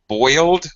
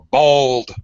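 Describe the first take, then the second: First: The vowel is a full oi diphthong. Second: The vowel is reduced, sounding like bold. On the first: "native speakers say boiled or bold" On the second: "It sounds more like bold"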